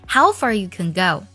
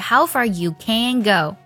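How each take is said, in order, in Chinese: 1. 'can' 弱读成短元音。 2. 'can' 读成完整元音。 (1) "在我们的肯定句当中通常它会弱读成肯的音" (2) "而不是 / 这样听起来就会特别像我们的否定式了"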